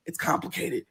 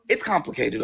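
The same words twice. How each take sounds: First: Hushed repeat; soft exhausted whisper. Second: Said in the usual way. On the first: Retold or imitated. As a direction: breathe it out, pleading.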